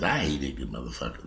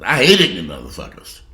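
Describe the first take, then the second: First: Low muttered. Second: Louder, stress on hate; the same line now shouted; loud outburst. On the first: Repeats line, quiet then loud. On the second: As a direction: punch hate hard. Repeats line, louder second time. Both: Real, not acted.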